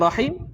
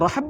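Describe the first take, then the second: First: Two syllables, with the vowels a then i. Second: One syllable with the vowel a. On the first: "boleh baca rahim" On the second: "boleh baca rahm"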